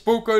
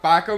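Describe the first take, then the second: First: The first vowel sounds like 'oh'. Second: The first vowel sounds like 'ah'. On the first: The speaker calls it right. "maar het is Poco natuurlijk" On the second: The speaker calls it wrong. "Ik zeg heel vaak Paco"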